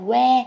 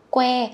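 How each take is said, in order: First: "que" said as "we", without the k; soft w onset. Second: "Que" with a hard, breath-released k; aspirated k onset. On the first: Teacher shows learners the Southern mistake, "que" with a soft w onset. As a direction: drop the k and round the lips into "que". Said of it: "chứ không phải là que". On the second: Teacher shows learners the sound, k released with a puff in "Que". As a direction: pop the k at the start of "Que". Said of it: "đọc như âm cờ nhá, các con bật cái hơi ra". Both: Shown as a demonstration.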